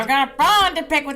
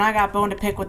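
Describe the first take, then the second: First: It is said in a put-on Skeletor-style voice. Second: It is said in an ordinary speaking voice.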